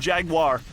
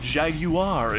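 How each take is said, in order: First: The word is said in an ordinary, plain way. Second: The word is said in a fancy, posh way.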